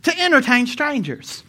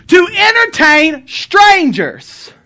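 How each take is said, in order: First: "To entertain strangers" repeated quieter, stressing "entertain"; quiet echo of the verse; softer repeat. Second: "To entertain strangers" shouted slow and high; calling out the verse to the church; preached shout. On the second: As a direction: proclaim "To entertain strangers" loudly, drawn out. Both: Shown as a demonstration. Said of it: "what does it say".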